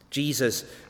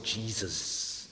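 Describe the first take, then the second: First: It is said in a normal speaking voice. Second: It is said in an intense religious voice.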